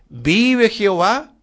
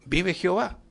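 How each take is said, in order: First: Slow, solemn prophetic call, a touch louder; prophet's proclamation. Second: Said in the usual way. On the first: Acted. Preacher quoting the prophets of old, slow solemn proclamation. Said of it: "cómo comenzaban sus profecías". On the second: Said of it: "Se acuerda que lo decía".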